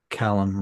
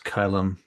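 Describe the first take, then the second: First: The name starts with a 'cal' sound. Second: The name starts with a 'ky' sound. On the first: The speaker calls it wrong. "you were calling him Callum before" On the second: The speaker calls it right. "But it's Kylam"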